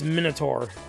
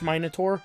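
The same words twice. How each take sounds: First: It is said with an American pronunciation. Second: It is said with a British pronunciation. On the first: "It's Minotaur, you idiot" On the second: "If you're British"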